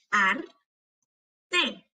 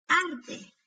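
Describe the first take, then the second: First: "Arte" slowly as ar, long pause, te; broken into syllables. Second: Said in the usual way. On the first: Shown as a demonstration. Teacher helping hear each sound, syllable by syllable. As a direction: break "Arte" in two. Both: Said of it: "quiero que las quiebres entre sílabas".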